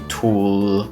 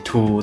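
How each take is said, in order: First: The final consonant is clearly pronounced. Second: The final consonant is weak or dropped. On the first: The speaker calls it right. "we wouldn't say tool" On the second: The speaker calls it wrong. "we would just say tool"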